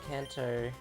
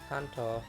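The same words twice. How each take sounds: First: The name is said with English-style pronunciation. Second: The name is said with Japanese-style pronunciation. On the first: "the pronunciation Kanto is just ingrained because that's how they say it in the anime" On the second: "if you want to be, uh, you know, true to its origin"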